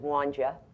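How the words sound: The words run together like Ruth's accent.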